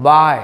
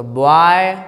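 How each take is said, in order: First: बाय short and loud, "baay" without O; crisp model of बाय with open "aa"; corrected pronunciation. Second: बॉय drawn out with a rounded "bo-aay"; slow mistaken "bo-aay" for बॉय; wrong O reading. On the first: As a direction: say बाय as one punched "baay". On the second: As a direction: stretch बॉय as "bo-aaay", O sound put in. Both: Shown as a demonstration. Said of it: "वो नहीं पढ़े हैं".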